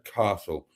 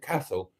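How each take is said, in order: First: It is said in a southern English accent. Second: It is said in a northern English accent. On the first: This is how outsiders from the south say it. The speaker calls it wrong. "not a castle, as you know we right-thinking Southerners would uh, would call it" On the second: This is how local people say it. The speaker calls it right. "it's a castle"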